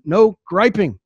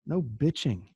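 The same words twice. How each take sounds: First: Firm and louder; clean version. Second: Dropped to a soft aside, much softer; blunt version. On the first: Coach restating the rule to the team, louder and firm. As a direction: announce the clean rule firmly. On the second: Coach muttering the crude word to the audience, softly. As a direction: slip in the crude word quietly. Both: Shown as a demonstration. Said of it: "That's the clean way of saying it".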